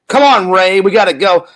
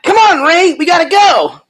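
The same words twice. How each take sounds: First: It is said in his normal voice. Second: It is said in a higher-pitched voice.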